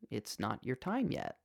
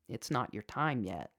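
First: The voice sounds gentle and soft. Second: The voice sounds stern and firm.

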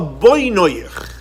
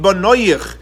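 First: It is pronounced as the form for 'your builders'. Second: It is pronounced as the form for 'your children'. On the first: It refers to your builders. "if you pronounce it differently, it could be the children or builders" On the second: It refers to your children. "don't read b'noyich as your children"

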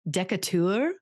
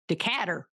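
First: It is said in a fancy British accent. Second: It is said in an Alabama Southern accent.

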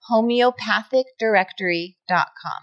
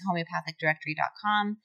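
First: It is said slowly and deliberately. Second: It is said at a normal pace.

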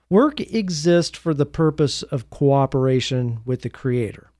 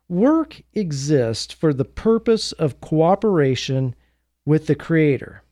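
First: It is said at a normal pace. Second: It is said more slowly.

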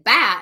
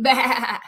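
First: The word is said short and clipped. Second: The word is drawn out like a goat.

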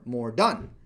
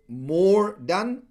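First: The stress falls on the word done. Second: The stress falls on the word more. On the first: The priority is actually finishing the work. "if you flip that" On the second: The priority is doing a greater quantity of work. "the emphasis there is on more, not on done"

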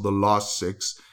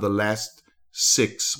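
First: It is said in a South African accent. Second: It is said in a Texan American accent. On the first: "as we say in South Africa" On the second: "I get my Texas accent now and again"

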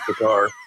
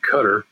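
First: It is said the way people there say it. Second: It is said the way American newsmen say it.

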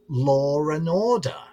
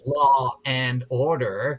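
First: An R sound links law to and. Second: No R sound comes between law and and. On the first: "you pronounce it like law and order" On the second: "instead of law and order"

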